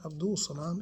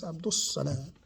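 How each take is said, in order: First: Abdul Salam with a clear L before the S; "Abdul Salam", single S after the L; L sounded in Abdul. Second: Abdul Salam said as Abdus-Salam; "Abdul Salam" with silent L, long S; L merged into S. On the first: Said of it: "No, it's not Abdul Salam". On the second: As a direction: drop the L and double the S in "Abdul Salam". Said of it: "it's not Abdul Salam". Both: Shown as a demonstration.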